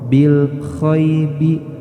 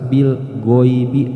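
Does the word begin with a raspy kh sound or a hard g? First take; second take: raspy kh; hard g. First: The second word starts with a raspy kh sound. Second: The second word starts with a hard g sound. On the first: "Jangan sampai terbaca huruf kha" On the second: "atau secara jelas bil goibi"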